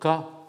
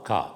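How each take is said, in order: First: The word is said on a mid tone. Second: The word is said on a low tone. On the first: It means a wound. "ton moyen" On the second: It means soon. "avec un ton grave"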